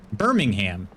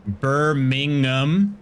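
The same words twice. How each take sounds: First: "Birmingham" said with a full "ham" at the end; every syllable emphasized. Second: "Birmingham" drawn out syllable by syllable, ending on a rise; every syllable stretched. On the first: Streamer showing off the American way, "Birmingham" ending in a clear "ham". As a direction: say "Birmingham" as Bur-ming-HAM, not drawn out. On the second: Streamer sounding out a viewer's town, "Birmingham" slow and questioning. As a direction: sound out "Birmingham" very slowly, as if asking. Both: Shown as a demonstration. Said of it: "We like to emphasize every syllable".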